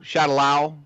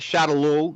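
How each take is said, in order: First: The last syllable sounds like 'lao'. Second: The last syllable sounds like 'loo'. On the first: It sounds more serious. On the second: It sounds silly. "they were leaning on Shadaloo in the first movie"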